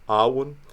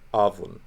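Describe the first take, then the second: First: The middle consonant is a W sound. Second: The middle consonant is a V sound. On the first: This is the traditional liturgical pronunciation. "we would say Awun, the liturgical way" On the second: This is a reconstructed pronunciation. "they might say Avun"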